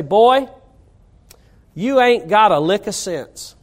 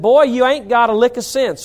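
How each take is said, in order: First: A hint of a North Carolina father scolding his boy; North Carolina accent. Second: North Carolina dad's scolding line, repeated lightly; a touch of North Carolina accent on "Boy, you ain't got a lick of sense". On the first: Preacher recalls his North Carolina dad scolding him, lightly accented. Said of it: "in that North Carolina accent". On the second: Retold or imitated. Preacher repeats his dad's words in a light North Carolina accent. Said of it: "That's how he said it".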